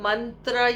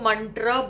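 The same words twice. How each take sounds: First: The 't' sound is dental. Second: The 't' sound is retroflex. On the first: The speaker calls it right. "उनके त तरबूज वाला नहीं है तो वो ... ये सब नहीं बोलेंगे" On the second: The speaker calls it wrong. "उनके तो ट टमाटर वाला है, इसलिए वो तो मंत्र बोलेंगे"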